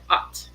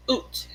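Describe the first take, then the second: First: "ot" said with an open ah as in hot; "ot" with a short open ah; plain ot. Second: "oot" said with a long oo as in boot; "oot" with rounded lips, long oo; Minnesota oot. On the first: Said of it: "instead of". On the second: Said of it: "they say". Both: Shown as a demonstration.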